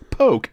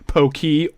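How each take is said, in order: First: One syllable, rhyming with 'joke'. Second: Two syllables, the second sounding like 'key'. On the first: "or worse, poke, as in I will poke you" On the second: "People often pronounce it Pokey"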